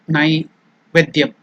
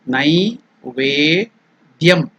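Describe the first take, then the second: First: The second syllable's vowel is short. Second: The second syllable's vowel is long. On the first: The speaker calls it wrong. "not Naivedyam" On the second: The speaker calls it right. "It is Ve elongated"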